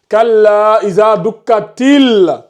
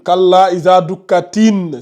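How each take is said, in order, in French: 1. Le dernier mot finit par un son l. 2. Le dernier mot finit par un son n. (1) "Tu passes de ti à au lam ici. Ça donne til" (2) "Tu dis ici tin. C'est pas tin"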